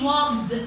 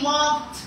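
First: The ending is voiced, with throat vibration. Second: The ending is voiceless, with no throat vibration. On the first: The speaker calls it wrong. "We don't say walked" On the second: The speaker calls it right. "we say walked"

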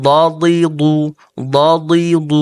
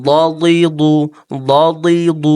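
The two takes are said the same way.

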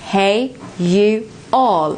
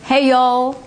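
First: It is said slowly, with you and all separate. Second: It is said quickly, with you all run together.

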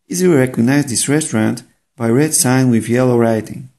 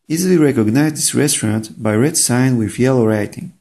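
Both takes have the same delivery.

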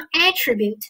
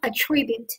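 First: The stress is on the first syllable. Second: The stress is on the second syllable. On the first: It is a noun meaning a quality or feature. "名前动后attribute，作为名词的话" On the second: It is a verb meaning to credit something to someone. "attribute 作为一个动词的话"

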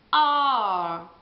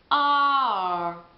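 The two takes are said the same way.

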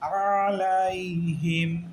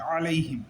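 First: The word is said slowly and drawn out. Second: The word is said quickly without lengthening. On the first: The speaker calls it wrong. "এটা আমরা আলাইহিম এরকম বলা যাবে না" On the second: The speaker calls it right. "আলাইহিম এক দ্রুত বলতে হবে"

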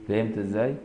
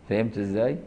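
Both takes have the same delivery.

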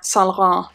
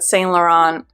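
First: The name is said with a French pronunciation. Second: The name is said with an English pronunciation. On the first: The speaker calls it right. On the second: The speaker calls it wrong.

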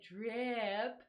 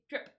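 First: The word is said slowly and drawn out. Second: The word is said quickly and clipped short. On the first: The speaker calls it wrong. "You don't say drip" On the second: The speaker calls it right. "you say drip. It's fast and short"

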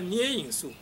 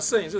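First: The first syllable is pronounced nie. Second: The first syllable is pronounced she. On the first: The speaker calls it wrong. "他一定要捏影术" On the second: The speaker calls it right. "大家都讲摄影术"

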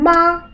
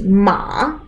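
First: The pitch stays high and level. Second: The pitch dips low, then rises. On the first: It means mother. "первым тоном «ма» – это «мама»" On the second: It means horse. "Третий ма это лошадь"

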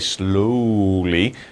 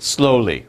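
First: The word is stretched out very slowly. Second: The word is said at normal speed. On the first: "You don't have to say slowly" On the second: "just slowly"

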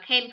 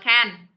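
First: The word clearly sounds like can. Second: The word sounds close to can't. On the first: It asks whether someone is able to do something. The speaker calls it right. "mình đọc là can" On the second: Listeners may think it means not able. The speaker calls it wrong. "không đọc là can. Bởi vì can thì người ta sẽ hình dung ra là mình đang nói từ không thể"

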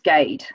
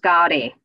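First: The surname is said in its anglicized form. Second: The surname is said in its original Indian form. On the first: This is the form adopted in England. "my surname is pronounced Gade. Here in England" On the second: This is the original form used in India. "Back in India, it's pronounced Gadi"

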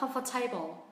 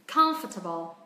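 First: The stress is on the second syllable. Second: The stress is on the first syllable. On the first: The speaker calls it wrong. "Chọn âm rơi âm thứ hai" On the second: The speaker calls it right. "Nhưng chọn âm rơi âm tiết thứ nhất"

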